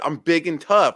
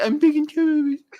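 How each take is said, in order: First: It is said in a manly voice. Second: It is said in a girlish voice. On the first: The speaker calls it right. "I said it just like a man" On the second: The speaker calls it wrong. "Like a little girl, like you said"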